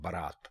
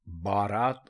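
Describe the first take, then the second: First: The first vowel is short. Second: The first vowel is long. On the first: The speaker calls it right. "दुरुस्त लफ्ज है बारात" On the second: The speaker calls it wrong. "तो बारात गलत है"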